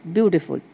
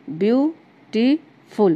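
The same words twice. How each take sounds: First: Said in the usual way. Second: beautiful slowly broken into view, टी, फुल; syllable-by-syllable beautiful, every beat drawn out; three stressed syllables. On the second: Shown as a demonstration. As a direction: stress each of the three parts of beautiful, with pauses. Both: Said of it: "तीन बार जोर दे के बोलना पड़ा".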